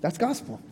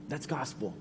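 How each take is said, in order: First: Said in the usual way. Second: "That's gospel" said again much softer, almost breathed; hushed repeat. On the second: Acted. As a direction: let the words sink in, drop right down. Repeated sermon refrain, softer take.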